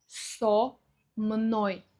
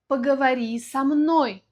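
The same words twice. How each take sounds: First: Со мной in two pieces, full "so", pause, "mnoy"; split preposition. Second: Со мной as one word, "samnóy", louder at the end; preposition joined. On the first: Teacher showing the separate words, со мной split. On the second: Example request for learners, со мной joined. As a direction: run со into мной with no gap. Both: Shown as a demonstration. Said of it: "произносим вместе".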